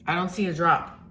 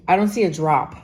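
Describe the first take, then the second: First: Said in the usual way. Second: Exasperated. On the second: Real, not acted. Exasperated repeat about weather.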